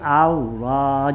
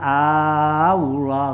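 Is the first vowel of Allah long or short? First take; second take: short; long. First: The first vowel is short. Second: The first vowel is drawn out long. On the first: It is a statement. The speaker calls it right. "jangan kamu panjangkan ya jangan dipanjangin ya jadi Allah" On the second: It becomes a question. The speaker calls it wrong. "jangan bilang Allah gitu ya nggak boleh"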